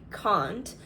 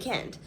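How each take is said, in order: First: It is said with a British accent. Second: It is said with an American accent. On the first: This is how the speaker used to say it. "I still sound British sometimes when I say certain things. But things like can't, because I used to say that all the time" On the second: This is how the speaker says it now. "But now I say can and can't"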